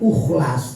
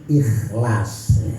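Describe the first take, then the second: First: The word begins with a u vowel. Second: The word begins with an i vowel. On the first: The speaker calls it wrong. "jangan dibaca ukhlas" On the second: The speaker calls it right. "tapi harus ikhlas ya"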